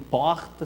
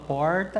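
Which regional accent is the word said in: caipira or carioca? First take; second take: carioca; caipira. First: It is said in a carioca Rio accent. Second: It is said in a caipira countryside accent. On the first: The speaker is from Rio de Janeiro. "ixi, um carioca" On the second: The speaker is from the countryside. "o cara que fala porta é o caipira"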